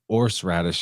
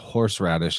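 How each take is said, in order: First: The word starts without any H sound. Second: The word starts with an audible H sound. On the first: "you can just drop it" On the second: "how much you put emphasis on the exhalation at the beginning"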